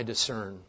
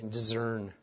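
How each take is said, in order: First: Said in the usual way. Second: "discern" with a z sound, French Canadian style; French Canadian accent. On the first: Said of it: "Or as my French Canadian friends would say". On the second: Retold or imitated. Preacher quoting French Canadian friends, French Canadian accent. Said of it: "as my French Canadian friends would say".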